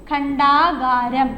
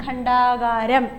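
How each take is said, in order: First: ഖണ്ഡാകാരം said very slowly and louder; slow dictation. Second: Slow dictation, softer. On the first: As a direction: draw it out for the class. (പതുക്കെ ഉറക്കെ) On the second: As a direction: repeat it gently. (പതുക്കെ ആവർത്തനം) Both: Shown as a demonstration. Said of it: "dictation of word".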